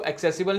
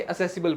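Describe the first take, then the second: First: एक्सेसिबल with a hard k sound, ek-se-sibal; wrong pronunciation. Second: असेसिबल with no k sound, a-se-sibal; correct pronunciation. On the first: Teacher showing students the wrong reading, ek-sesibal. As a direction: say एक्सेसिबल as ek-sesibal, the way not to read it. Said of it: "time पे इसको एक्सेसिबल नहीं पढ़ेंगे". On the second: Teacher giving students the right reading, a-sesibal. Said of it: "असेसिबल पढ़ेंगे". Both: Shown as a demonstration.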